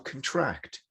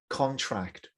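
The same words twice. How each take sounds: First: The stress is on the second syllable. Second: The stress is on the first syllable. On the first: It is a verb. "or a verb" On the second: It is a noun. "noun ... stress on the con"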